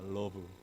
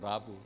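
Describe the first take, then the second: First: The first vowel sounds like 'uh'. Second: The first vowel sounds like 'ah'. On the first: "러브입니다" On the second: "근데 발음을 라브라 그러더라고"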